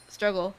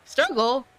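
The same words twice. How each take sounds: First: Said in the usual way. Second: Struggle? with a high, louder rising end; questioning rise. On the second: Shown as a demonstration. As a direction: ask Struggle? puzzled, pitch up.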